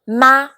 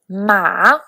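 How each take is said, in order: First: The pitch rises from middle to high. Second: The pitch dips low, then rises. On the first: "for the second tone" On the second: "for the third tone"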